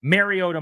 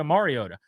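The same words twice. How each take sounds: First: Mariota starting with "Mare"; "MAIR-ee-OH-da" for Mariota; Mayer version. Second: Mariota starting with "Mar"; Maher version. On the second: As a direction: say Mariota with an open "mar" up front. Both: Shown as a demonstration. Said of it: "it's not Mayer or Maher".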